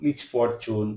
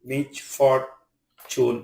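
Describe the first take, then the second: First: Said in the usual way. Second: "misfortune" slowly broken into three syllables; "misfortune" pulled apart for learners; split syllables. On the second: Shown as a demonstration. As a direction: pause between the syllables of "misfortune". Word split by syllable, then whole.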